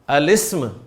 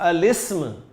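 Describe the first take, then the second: First: The article and noun run together. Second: The same.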